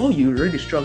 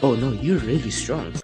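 First: It is said in a plain, neutral tone. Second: It is said in a suggestive, flirty tone.

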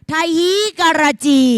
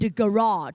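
First: It is read out letter by letter, Thai-style. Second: It is said with ordinary English pronunciation. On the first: The speaker calls it wrong. "แต่สมภพอ่านว่าอะไรคะลูกไทฮีการาจี" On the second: The speaker calls it right. "ไม่ได้นะอันนี้เอาว่า"

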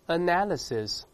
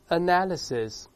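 No difference in how they are said.

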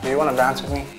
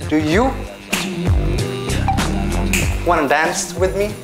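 First: It is said quietly. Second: It is said loudly.

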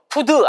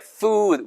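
First: The word starts with a p-like sound. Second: The word starts with an f sound. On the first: The speaker calls it wrong. "이거 푸드 아니에요, 절대" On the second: The speaker calls it right. "food예요, food. 위치 아랫입술"

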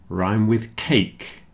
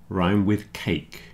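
Both takes have the same delivery.

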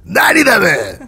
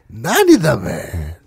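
First: The line is said in a rough, harsh voice. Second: The line is said in a teasing, mocking voice. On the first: "거칠지만" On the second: "농락하는"

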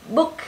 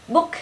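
Both takes have the same delivery.

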